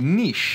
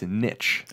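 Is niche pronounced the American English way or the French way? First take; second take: French; American. First: The word is pronounced the French way. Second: The word is pronounced the American English way. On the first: "So in French, it would be niche" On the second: "But in English, in American English, it's niche"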